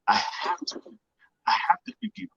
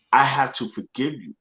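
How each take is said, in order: First: A near-whispered breath, then a high cracking plea; voice breaking. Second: Said in the usual way. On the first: Retold or imitated. Son at his father's deathbed, voice breaking with emotion. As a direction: let the voice crack on the plea to forgive.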